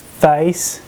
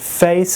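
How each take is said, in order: First: The vowel has the conservative Texan sound. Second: The vowel has the standard, non-Texan sound.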